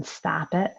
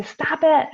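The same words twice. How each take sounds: First: Said in the usual way. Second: Sharp, high, louder "Stop it." blurted out; exasperated snap. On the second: Shown as a demonstration. Parent losing patience with kids, snapping "Stop it.". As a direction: bark "Stop it." at the kids in frustration. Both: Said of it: "so often we just wanna say".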